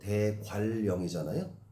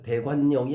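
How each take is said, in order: First: The middle consonant becomes an l sound. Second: The middle consonant stays an n sound. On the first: The speaker calls it right. "역행적 유음화" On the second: The speaker calls it wrong. "아니고"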